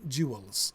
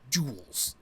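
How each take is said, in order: First: The word is said with two syllables. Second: The word is said with one syllable. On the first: The speaker calls it wrong. "might pronounce that with something like two syllables" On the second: The speaker calls it right. "to be a one syllable word"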